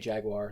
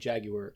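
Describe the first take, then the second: First: Jaguar is said in a non-British way. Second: Jaguar is said in the British way. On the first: The speaker calls it wrong. "They don't say Jaguar" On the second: The speaker calls it right. "in England though, it's a Jaguar... they say Jaguar"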